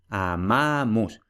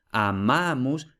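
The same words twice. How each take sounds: First: "Amamus" said slowly, stress on MA; slow stressed demo. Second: Said in the usual way. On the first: Shown as a demonstration. Teacher slowly demonstrating the Latin stress on MA. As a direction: draw out "Amamus" and lean on MA. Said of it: "la palabra es llana".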